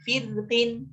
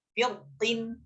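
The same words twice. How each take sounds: First: Firtin with a thin, light r. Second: Firtin with a thick, heavy r. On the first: Teacher shows students the thin reading, firtin with light r. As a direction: say firtin drawn out, keeping the r thin. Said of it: "Dibaca tipis". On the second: Teacher shows students the thick reading, firtin with heavy r. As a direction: say firtin drawn out, making the r full and heavy. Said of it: "Dibaca tebal". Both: Shown as a demonstration.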